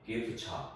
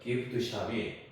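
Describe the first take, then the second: First: It is said fast with the t and sh merged. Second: It is said slowly with each sound separate.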